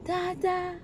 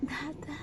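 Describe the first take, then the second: First: Put-on "Dada" said higher and fuller for the child; clear model word. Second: Put-on a soft, quiet "Dada" for the baby to copy; soft model word. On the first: Mother prompts her toddler to say "Dada" again, higher. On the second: Mother softly models "Dada" for her toddler. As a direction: murmur "Dada" gently as an example. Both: Shown as a demonstration. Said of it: "Say it again".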